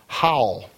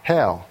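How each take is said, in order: First: The vowel sounds like the one in owl. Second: The vowel sounds like the one in pal. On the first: The speaker calls it right. "it was Howl" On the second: The speaker calls it wrong. "you would pronounce that Hal, and you would be wrong"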